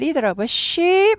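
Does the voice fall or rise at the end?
rise. The voice rises at the end. The speaker calls it wrong. "아니고"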